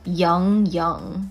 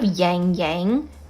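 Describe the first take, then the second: First: The vowel is said without a nasal quality. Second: The vowel is said with a nasal quality. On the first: The speaker calls it right. "Take off the nasal part" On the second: The speaker calls it wrong. "I prefer you don't go Yang Yang"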